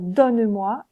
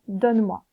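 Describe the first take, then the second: First: "donne-moi" with the E spoken, don-ne-moi; sounded E. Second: "donne-moi" with the E swallowed, donn'moi; silent E. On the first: Teacher shows the right way to say "donne-moi". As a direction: say "donne-moi" in three syllables. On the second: Teacher shows the wrong way to say "donne-moi". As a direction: say "donne-moi" in two syllables. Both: Shown as a demonstration. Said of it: "et non pas donne-moi".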